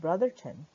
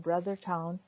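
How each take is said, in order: First: The name ends with a reduced 'ton' sound. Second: The name ends with a full 'town' sound. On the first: "which is also pronounced Brotherton" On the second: "This slide is on the brother town"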